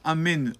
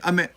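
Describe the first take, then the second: First: The final n sound is clearly heard. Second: The final n sound is cut off. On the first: The speaker calls it right. "bien entendre les trois, ces trois lettres" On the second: The speaker calls it wrong. "on n'entend pas le Nun"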